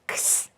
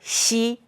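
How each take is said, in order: First: The letter is said like English "ex". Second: The letter is said like pinyin "xi". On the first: The speaker calls it wrong. "you are English speaker ... You will pronounce X" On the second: The speaker calls it right. "But in Pinyin, it pronounced Xi"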